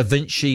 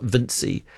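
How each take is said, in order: First: Vinci said VIN-chee. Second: Vinci said VIN-see. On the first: Radio host reading a listener's correction, Vinci as VIN-chee. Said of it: "Da Vinci is pronounced Vinci". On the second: Radio host giving the rejected form, Vinci as VIN-see. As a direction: say Vinci with an "s" sound instead of "ch". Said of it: "not Vinci". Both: Shown as a demonstration.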